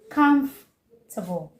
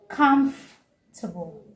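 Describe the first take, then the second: No difference in how they are said.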